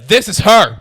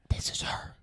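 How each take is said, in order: First: It is said very loudly. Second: It is said quietly and discreetly. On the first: Everyone nearby could hear it. "You couldn't be louder" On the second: It was meant to stay private. "I thought I said it like"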